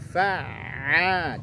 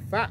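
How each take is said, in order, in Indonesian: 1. Bunyi ain terakhir mengalir sedikit. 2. Bunyi ain terakhir berhenti mendadak. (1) "Tapi alirkan punya ainnya" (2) "Jangan fa'. Itu tak boleh"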